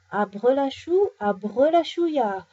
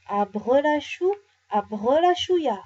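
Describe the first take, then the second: First: Loud, drawn-out magic spell; lightly voiced big bear magician. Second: Louder, drawn-out magic spell; slow, grand magic words; inspired incantation. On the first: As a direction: boom out the spell slowly. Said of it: "de sa grosse voix". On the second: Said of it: "d'un air très inspiré". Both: A narrator's reading.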